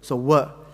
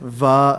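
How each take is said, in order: First: The syllable begins with a w sound. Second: The syllable begins with a v sound. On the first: The speaker calls it right. "It's more like a W" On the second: The speaker calls it wrong. "Don't say va"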